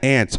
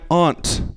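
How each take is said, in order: First: The word is pronounced in an ordinary way. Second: The word is pronounced in a fancy-sounding way. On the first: The speaker calls it right. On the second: The speaker calls it wrong.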